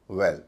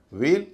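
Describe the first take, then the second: First: "वेल" as well, short open e; short vowel. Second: First "वेल" as veil, long ay; long vowel. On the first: Teacher pairing well against veil, short vowel. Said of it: "ए जो छोटा है". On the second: Teacher pairing veil against well, long vowel. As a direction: stretch ए in "वेल" after a v. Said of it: "ए जो है लंबा है". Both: Shown as a demonstration.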